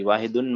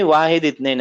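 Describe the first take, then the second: First: "वाहिदुन" with the -un case ending; grammar-style ending. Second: "वाहिद इत्नैन" without case endings; counting form "वाहिद इत्नैन", no -un ending; reading form. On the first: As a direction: add a full "-un" to make "वाहिदुन". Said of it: "वाहिदुन मत पढ़िए". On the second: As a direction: say "वाहिद इत्नैन", stopping on the final d of "वाहिद". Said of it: "ऐसे की". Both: Shown as a demonstration.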